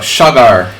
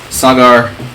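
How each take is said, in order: First: The name is pronounced the Hungarian way. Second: The name is pronounced the plain English way. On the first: The speaker calls it wrong. "I'm pronouncing it like it's Hungarian" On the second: The speaker calls it right. "I guess it should be Sagar"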